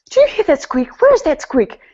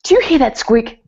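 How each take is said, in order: First: Higher, louder, more frantic repeat of the worry; the same fuss, now ramped up and insistent; hammed-up husband hunting a squeak; tense, fretting husband. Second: A fussy, worried question, pitched up and a bit louder; mock anxious husband fussing over the car; tense, fretting husband. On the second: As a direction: imitate a tense husband straining to catch a noise. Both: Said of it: "he'd be sitting there so tense".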